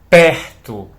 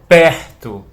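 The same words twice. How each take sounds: First: The R vibrates in the throat. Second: The R vibrates in the throat.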